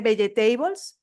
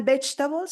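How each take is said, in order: First: Vegetables in four syllables, be-ye-TEI-bols; Spanish-style mispronunciation. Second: Vegetables in two syllables, stress on the first; correct English pronunciation. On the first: Learner mispronouncing for listeners, vegetables in four phonetic syllables. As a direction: sound out every vowel of vegetables as in Spanish. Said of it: "tenemos cuatro sílabas". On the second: Teacher showing a learner the word, vegetables in two syllables. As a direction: say vegetables short, as VECH-tabols. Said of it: "dos sílabas". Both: Shown as a demonstration.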